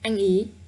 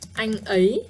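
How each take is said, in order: First: The second word has a simpler 'ee' vowel. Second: The second word has the fuller 'ay' vowel. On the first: This is the casual spoken form people actually use. "not as smooth and easy as the word ý" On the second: This is the standard written form, rarely used in casual talk. "ấy is quite difficult"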